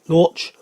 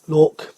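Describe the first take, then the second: First: The name ends with a 'ch' sound. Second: The name ends with a 'k' sound.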